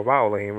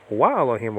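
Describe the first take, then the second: First: "va Elohim" starting with a V; "va Elohim", V as in vase; V sound. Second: "wa Elohim" starting with a W; "wa Elohim", W as in water; W sound. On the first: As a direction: say "va Elohim" with lip on teeth. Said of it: "V sound". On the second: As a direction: say "wa Elohim" with a rounded W. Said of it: "with a W sound or". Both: Shown as a demonstration.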